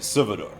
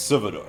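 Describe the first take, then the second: First: The L is nearly silent, Spanish style. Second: The L is nearly silent, Spanish style.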